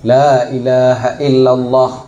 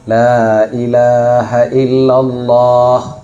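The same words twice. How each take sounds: First: The vowel in Allah is said short. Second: The vowel in Allah is held long. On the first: The speaker calls it wrong. "menya Allah hana baca panjang, hanjik zikir" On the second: The speaker calls it right. "kalimat Allah yang betul berpanjang Allah"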